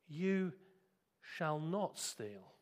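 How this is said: It is said gently, like a reassurance. It is an assurance of what he will become. "Christ was speaking these words to him as a promise"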